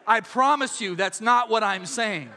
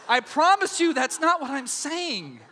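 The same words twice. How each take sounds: First: Said in the usual way. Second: Laughing promise. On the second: Real, not acted. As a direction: promise laughing, a bit higher.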